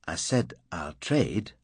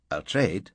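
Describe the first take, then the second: First: Slow, with weight on "said"; firm repeat. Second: Said in the usual way. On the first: Acted. Dunford repeating the offer to Fraser, slow and firm on "said". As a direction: lean on "said" and slow right down, insisting.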